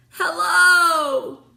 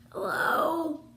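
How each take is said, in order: First: Loud, high shout of hello; calling out. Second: A weak, hoarse hello; quiet and hoarse. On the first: Virgil shouting up to friends above, loud. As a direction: call up with everything you have. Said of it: "he called". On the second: Virgil weakly answering from the well, hoarse and quiet. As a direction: croak it out after a long silence. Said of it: "His voice was quiet and hoarse". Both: A narrator's reading.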